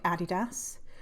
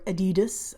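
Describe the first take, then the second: First: It is pronounced in a non-North American way. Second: It is pronounced the North American way.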